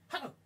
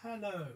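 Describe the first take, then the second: First: It is said very short and clipped. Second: It is said at normal, full length.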